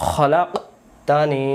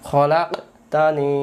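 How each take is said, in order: Both takes have the same delivery.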